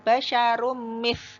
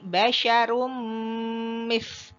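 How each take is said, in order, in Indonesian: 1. Dengung nasal sebelum m pendek. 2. Dengung nasal sebelum m ditahan panjang. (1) "tidak sekedar basyarum mis" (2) "gunnahnya pada level yang paling tinggi yaitu gunnah akmal"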